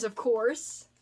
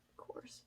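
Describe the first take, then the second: First: Said in the usual way. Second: Breathy whispered aside, Of course with no voice; soft unvoiced repeat of Of course; whispered echo. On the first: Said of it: "Of course (repeated unvoiced)". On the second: Shown as a demonstration. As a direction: whisper Of course back to yourself.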